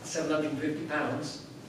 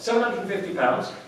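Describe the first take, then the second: First: It is said hesitantly and apologetically. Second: It is said confidently without hesitation.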